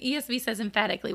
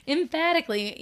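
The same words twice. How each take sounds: First: Said in the usual way. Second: Emphatically said through a laugh, higher; laughing emphasis. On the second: Shown as a demonstration.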